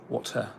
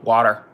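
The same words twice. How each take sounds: First: The T is clearly pronounced. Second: The T is a soft American flap.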